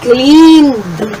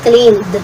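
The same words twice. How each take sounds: First: The final D sound is overdone and exaggerated. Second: The final D sound is light and simple. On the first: The speaker calls it wrong. "wag naman masyadong clean, cleaned" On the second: The speaker calls it right. "Basta clean, cleaned. Uh, simple lang"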